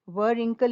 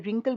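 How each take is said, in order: First: A w sound is pronounced before the r. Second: The word starts directly with the r sound. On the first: The speaker calls it wrong. "व रिंकल नहीं बोल रहे थे" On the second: The speaker calls it right. "रिंकल बोल रहे थे"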